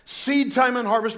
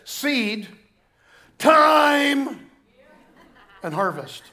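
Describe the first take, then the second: First: It is said smoothly without pauses. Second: It is said with pauses between words.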